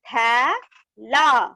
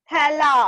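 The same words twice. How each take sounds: First: "थै... ला" slowly with a gap; syllable by syllable. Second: "थैला" blended without a gap; joined word. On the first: Teacher reading matra words to class, "थै - ला" split. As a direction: break "थैला" into two drawn-out syllables. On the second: Teacher completing the word for class, "थैला" joined up. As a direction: run "थैला" together as one word. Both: Shown as a demonstration. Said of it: "इस तरह से read करेंगे".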